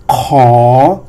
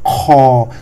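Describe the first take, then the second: First: "Kho" loud and long, rising from low. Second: "Kho" lowered to a level tone and held; long level "Kho", with no rise; flat tone. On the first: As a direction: demonstrate "Kho" with an upward glide. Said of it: "this is rising". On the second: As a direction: drop "Kho" down and keep it even. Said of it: "lower your tone to the flat tone". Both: Shown as a demonstration.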